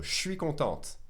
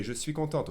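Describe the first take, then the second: First: "je suis" squeezed into shwee, T sounded in "contente"; contracted "je suis". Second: "je suis" as two words, T sounded in "contente"; full "je suis". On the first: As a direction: run "je suis" into one syllable, shwee. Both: Shown as a demonstration. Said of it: "A girl would say".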